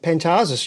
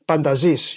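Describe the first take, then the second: First: The name is pronounced the Australian way. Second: The name is pronounced the Greek way. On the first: "the Australian pronunciation" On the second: "in Greek you would say Pandazis"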